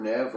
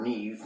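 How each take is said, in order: First: "Neve" with short e, like "Nev"; short-e pronunciation. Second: "Neve" with long ee, like "Neev"; long-ee pronunciation. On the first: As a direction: rhyme "Neve" with "rev". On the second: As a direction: rhyme "Neve" with "sleeve". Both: Shown as a demonstration. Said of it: "however you say that".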